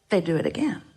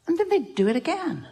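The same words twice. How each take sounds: First: Said in the usual way. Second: Much higher pitched, comically exasperated; mock exasperation. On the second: Teacher retelling a hurt that keeps recurring, mock exasperated. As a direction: play up the repeat in a high voice.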